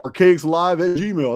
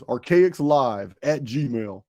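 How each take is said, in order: First: Archaics Live at Gmail, each word slow and clear; spelled out slowly. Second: Archaicslive at gmail, drawn out word by word; very slow dictation. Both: Shown as a demonstration. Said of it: "you have to email".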